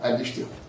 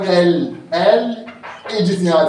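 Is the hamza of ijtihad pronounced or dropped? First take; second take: dropped; pronounced. First: The hamza drops and al links straight into ijtihad. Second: The hamza is pronounced after a break after al. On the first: The speaker calls it right. "تسقط تصير شنو؟ تصير هكذا الاجتهاد" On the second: The speaker calls it wrong. "نبغى تقول ال اجتهاد خلدها خطأ"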